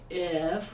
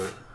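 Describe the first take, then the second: First: The word is said with its full vowel. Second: The vowel is dropped, leaving only f. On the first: "we don't always say if" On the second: "we say f"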